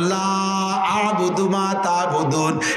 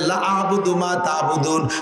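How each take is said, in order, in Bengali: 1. 'la' শব্দের স্বরধ্বনিটি টেনে দীর্ঘ করা হয়। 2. 'la' শব্দের স্বরধ্বনিটি ছোট করে উচ্চারণ করা হয়।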